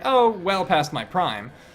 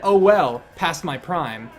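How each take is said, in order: First: 'Oh' trails straight into the following words. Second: 'Oh well' is grouped as its own phrase.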